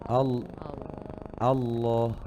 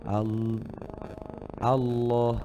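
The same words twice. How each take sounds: Both takes have the same delivery.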